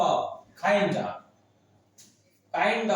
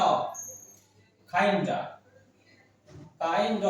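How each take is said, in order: The two takes are said the same way.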